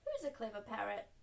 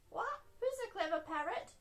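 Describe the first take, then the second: First: Said in the usual way. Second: High-pitched parrot squawk and echo; parrot copying. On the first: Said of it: "Granny Pig said, beaming at Polly". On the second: A narrator's reading. Polly Parrot copies Granny Pig's praise, high parrot voice. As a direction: squawk it, then parrot the question back. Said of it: "Polly copied".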